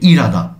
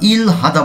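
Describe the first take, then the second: First: The h sound is dropped and syllables merge. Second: The h sound is clearly pronounced. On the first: "একসাথে বললে হয়ে যাবে ইরাদা" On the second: "আমরা ইল হাদা বলে থাকি"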